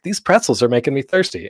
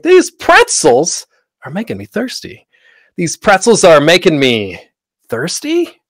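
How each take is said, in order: First: Said in the usual way. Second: High, loud, slow "These pretzels are making me thirsty"; exaggerated line takes. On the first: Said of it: "saying that line in different ways". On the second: Shown as a demonstration. Actors trying one line different ways, exaggerated "These pretzels are making me thirsty". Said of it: "though that's exaggerated".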